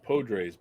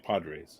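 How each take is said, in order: First: The first vowel sounds like 'o'. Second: The first vowel sounds like 'a'. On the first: This is the name's proper pronunciation. "I guess his name is pronounced Podres" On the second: This is a personal habit. "I always pronounce it with an A"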